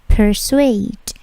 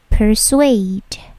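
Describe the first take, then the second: No difference in how they are said.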